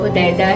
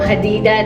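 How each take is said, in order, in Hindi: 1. नाम 'Hu' से शुरू होता है और 'Hudaida' जैसा बोला जाता है। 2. नाम 'Ha' से शुरू होता है और 'Hadida' जैसा बोला जाता है। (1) "वो हुदैदा है" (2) "नहीं है"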